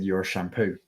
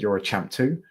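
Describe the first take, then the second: First: It is said in his foreign accent. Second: It is said in a plain accent.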